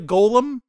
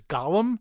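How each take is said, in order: First: It is said as the word golem. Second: It is said like the name Gollum. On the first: The speaker calls it right. "I'm going to call it a golem" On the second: The speaker calls it wrong. "I'm not going to pronounce it the way they do, which is Gollum"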